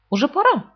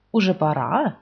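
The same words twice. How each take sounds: First: Asked aloud. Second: Polite question. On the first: Rabbit asks Pooh aloud, higher voice. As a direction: pipe it up as the rabbit. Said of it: "Вслух он спросил". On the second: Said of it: "вежливо спросил кролик". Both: A narrator's reading.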